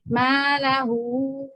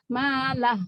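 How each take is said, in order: First: The word ends with a vowel after h. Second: The word ends on a bare h sound. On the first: The reading continues into the next word. "bacanya empat" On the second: The reader stops on this word. "malah aja dia jadi hak"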